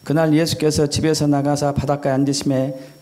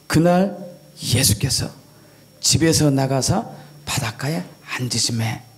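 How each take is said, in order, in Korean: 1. 감정 없이 밋밋하게 읽습니다. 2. 억양과 감정을 살려 생생하게 읽습니다. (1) "그냥 밋밋하게 읽는 것" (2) "억양과 감정을 넣어서 읽는 게"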